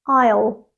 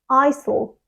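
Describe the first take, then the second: First: It is said as one syllable without an s. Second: It is said as two syllables with an s. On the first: The speaker calls it right. "It has just one syllable" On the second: The speaker calls it wrong. "they say it with two syllables and they pronounce the S sound"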